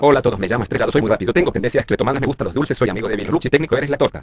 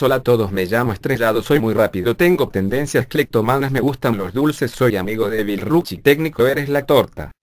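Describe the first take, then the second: First: It is spoken very fast. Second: It is spoken very slowly.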